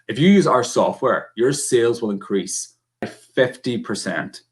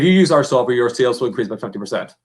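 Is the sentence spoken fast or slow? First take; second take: slow; fast. First: The sentence is spoken slowly and controlled. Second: The sentence is spoken very fast. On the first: The message lands better. The speaker calls it right. "Slower, more controlled" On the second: The listener may barely follow the message. The speaker calls it wrong. "Super fast"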